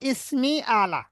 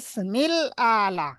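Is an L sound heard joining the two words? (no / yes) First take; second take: no; yes. First: The words join without an L sound. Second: An L sound links the two words. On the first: It is read in the Persian style. "ফার্সি ভাষার রূপ অনুযায়ী আমি এটাকে পড়েছি" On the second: It is read in the Arabic style. "যদি আরবি হতো তাহলে সেখানে আমাদের বলা লাগতো"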